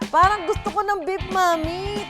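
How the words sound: The line is said in a happy, cheerful tone. "ang unang emosyon, happy!"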